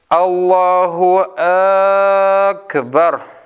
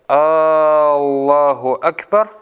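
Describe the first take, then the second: First: An extra vowel is added at the start of Akbar. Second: An extra vowel is added at the start of Allah. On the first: It turns the phrase into a question: is He the greatest? "Добавляют «Хамзу» к слову «Акбар». Говорят" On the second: It turns the phrase into a question: is Allah the greatest? "добавляют слово «Аллаху Акбар», «Аллах», «Хамзу». И у них получается так"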